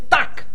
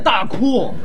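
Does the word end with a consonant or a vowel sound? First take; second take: consonant; vowel. First: The word ends with a consonant sound. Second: The word ends with an added vowel sound. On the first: The speaker calls it right. "鸭子念duck" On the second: The speaker calls it wrong. "不念大哭"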